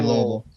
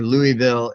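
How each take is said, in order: First: It is said with a slow local drawl. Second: It is said plainly, without a drawl. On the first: The speaker calls it right. "You got to put that drawl on it" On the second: The speaker calls it wrong. "or Louisville"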